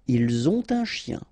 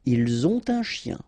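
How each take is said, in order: First: A t sound joins ont to un. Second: The same.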